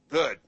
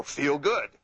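First: "Good." higher and louder, pitch falling at the end; falling command. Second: "Feel good." higher and louder, pitch dropping on "good"; falling command. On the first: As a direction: say "Good." as a firm order, dropping down. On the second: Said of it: "Voice inflection down". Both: Shown as a demonstration.

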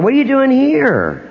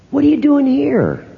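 First: High, startled airport question; surprised stranger. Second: High, startled question from a passerby; surprised stranger. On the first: Fan spots the psychic at the airport, startled and higher. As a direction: gasp it out like you spotted a celebrity. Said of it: "I'm in the airport". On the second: Stranger spots the psychic in Lyons, startled and higher. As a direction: act like you can't believe who you just spotted. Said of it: "somebody walked up to me and said". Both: Retold or imitated.

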